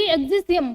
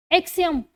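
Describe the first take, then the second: First: एक्सिसियम read out letter by letter as it is spelt, with an extra सि; spelling-style reading. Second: एक्सियम said as ek-see-um, without the extra सि; correct pronunciation. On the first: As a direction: say एक्सिसियम syllable by syllable, the way the spelling looks. (एक्सिसियम को spelling के हिसाब से पढ़ना) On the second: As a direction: give the correct एक्सियम, short and clean. (एक्सियम का सही उच्चारण) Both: Shown as a demonstration. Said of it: "इसकी pronunciation है एक्सियम".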